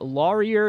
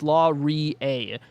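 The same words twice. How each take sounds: First: The name is pronounced in a non-Canadian way. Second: The name is pronounced in the Canadian way. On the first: The speaker calls it wrong. "Laurier is what I said" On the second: The speaker calls it right. "It's Laurier. Uh, source, I'm Canadian"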